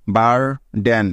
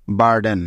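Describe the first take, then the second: First: বারডেন slowly, with a pause between বার and ডেন; split into syllables. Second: Said in the usual way. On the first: Shown as a demonstration. Teacher joining the syllables for learners, slowly and separately. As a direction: sound out বারডেন in two parts, বার, then ডেন. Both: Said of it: "একবার থামতে হচ্ছে".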